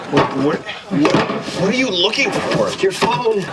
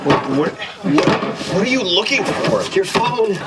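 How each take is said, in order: Both takes have the same delivery.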